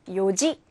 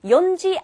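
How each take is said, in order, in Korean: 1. ji 앞에 n 소리가 없어요. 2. ji 앞에 n 소리가 있어요.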